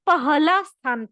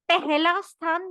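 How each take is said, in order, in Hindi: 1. बीच की 'h' ध्वनि साफ़ बोली जाती है। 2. बीच की 'h' ध्वनि छूट जाती है। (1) "उसने पहला स्थान पाया" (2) "पहला स्थान नहीं पाया"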